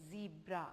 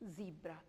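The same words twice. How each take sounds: The two takes are said the same way.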